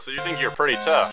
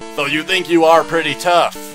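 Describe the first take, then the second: First: "You are" is contracted to "you're". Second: "You are" is said as two full words. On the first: "Instead of saying, you're" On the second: "This guy reminds me of Brock Lee from the way he talks"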